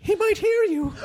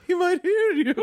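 First: Put-on high, laughing girlfriend voice; Emily impression. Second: High mock gossip voice; imitating the Emily impression. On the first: Playing Emily hushing a friend, high and giggly. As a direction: squeak it out like a nervous gossip. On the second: Repeating the friend's Emily line, pitched up. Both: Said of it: "love your Emily impression".

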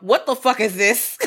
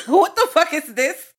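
First: Slow, indignant demand; outraged review. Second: Slow, high, loud indignation; escalated outrage. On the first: Co-host acting out a one-star Yelp review, slow outrage. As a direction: spell out the outrage slowly. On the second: Co-host acting out a one-star Yelp review, louder high-pitched outrage. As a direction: raise the pitch in incredulous outrage. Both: Acted. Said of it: "leaving a one-star Yelp".

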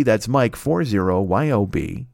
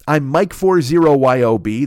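First: Slower, clearer repeat of the handle. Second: Said in the usual way. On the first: Shown as a demonstration. Host repeating his username so fans catch it, slowly. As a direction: spell it again slowly.

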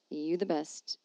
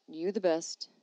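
No difference in how they are said.

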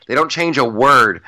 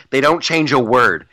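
Both takes have the same delivery.

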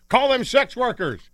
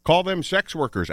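First: High, drawn-out mock yell; hammed-up exasperated shout; yelling at radio. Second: Higher-pitched repeat of a radio yell; toned-down yell at the radio; mild mock yell. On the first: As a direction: yell it slowly at the radio, pitched way up. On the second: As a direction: call it out high, half-shouted. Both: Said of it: "I was yelling at the radio".

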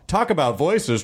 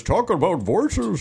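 First: Said in the usual way. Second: "Talk about voices" stretched slowly, each word drawn out. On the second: Shown as a demonstration.

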